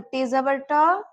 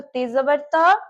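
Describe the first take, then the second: First: ट with tongue curled back, hard retroflex ʈa. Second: त voiced as dental t̪a. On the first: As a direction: curl the tongue for ट. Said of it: "ते पे रहेगा तो ते जबर ट". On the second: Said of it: "ते पे रहेगा तो ते जबर त". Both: Shown as a demonstration.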